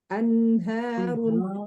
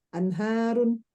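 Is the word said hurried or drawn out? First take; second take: Drawn out; Hurried. First: It is said slowly, with a held nasal. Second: It is said quickly, with a clipped nasal. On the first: The speaker calls it right. "Harusnya anharun gitu ya" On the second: The speaker calls it wrong. "bacanya buru-buru"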